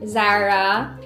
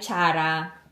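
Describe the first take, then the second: First: The word begins with a z sound. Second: The word begins with a ch sound.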